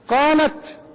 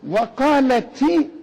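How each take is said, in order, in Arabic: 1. التاء الأخيرة لا تحمل أي حركة. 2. التاء الأخيرة تحمل كسرة قصيرة. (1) "قالت سكون" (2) "وقالتي مكسورة"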